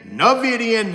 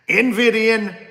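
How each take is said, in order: First: The word begins with a 'na' sound. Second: The word begins with an 'en' sound. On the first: "when I say it wrong" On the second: "however you want to pronounce it"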